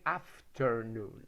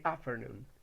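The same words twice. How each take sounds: First: The T sound is clearly pronounced. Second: The T sound is left out. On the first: "They don't say afternoon" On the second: "most of Americans omit the T sound. ... They say afternoon"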